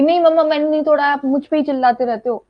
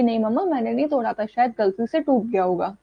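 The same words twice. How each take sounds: First: Put-on child snapping back at mom, a touch louder; mild mock retort, the wrong way to answer; talking back. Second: Calm reply. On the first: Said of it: "आप ये चीज नहीं करोगे". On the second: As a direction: gently answer without talking back. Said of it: "आराम से उनको बोलना होता है". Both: Shown as a demonstration.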